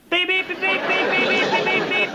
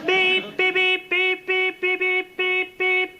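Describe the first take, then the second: First: The beeps are said fast. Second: The beeps are said slowly.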